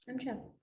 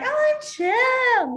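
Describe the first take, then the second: First: Much softer, offhand and casual; laid-back chill. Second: High, loud, drawn-out gushing; overexcited chill. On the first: A teacher showing the right way to say chill, softly and offhand. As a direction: toss it off like a cool kid. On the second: A teacher mocking the wrong way to say chill, overexcited. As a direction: gush it like an overeager kid. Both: Shown as a demonstration. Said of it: "No, it's".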